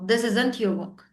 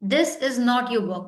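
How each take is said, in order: First: Is and not are merged into one word. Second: Is and not are said as separate words.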